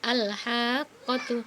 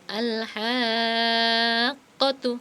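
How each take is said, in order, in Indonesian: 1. Vokal panjang hanya ditahan sebentar. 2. Vokal panjang ditahan sangat panjang. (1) "Tidak cukup al-haqqatu" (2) "tapi harus panjang banget"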